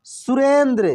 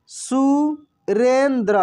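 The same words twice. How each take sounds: First: Said in the usual way. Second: Surendra drawn out slowly, each syllable apart; slow syllable reading. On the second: Shown as a demonstration. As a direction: read Surendra slowly for the class. (Surendra धीरे-धीरे खींचकर)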